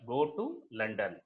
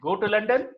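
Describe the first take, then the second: First: The voice stays level at the end. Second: The voice rises at the end.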